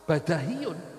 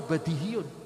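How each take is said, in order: First: The second syllable has the vowel a. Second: The second syllable has the vowel i. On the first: This is the reading of the Basran grammarians. "Nek cara ahli Basrah badahiyun" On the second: This is the reading of the Kufan grammarians. "tapi kata orang Kufah, ono sing maca badihiyun"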